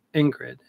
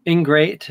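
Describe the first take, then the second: First: "Ingrid" said like the first name; read as written. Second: "Ingrate" with a long "ay" in the last syllable; corrected word. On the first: Retold or imitated. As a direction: say "Ingrid" with a short i ending. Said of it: "like the name Ingrid". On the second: Shown as a demonstration. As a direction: say "Ingrate", ending like "great". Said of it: "He called me Ingrid".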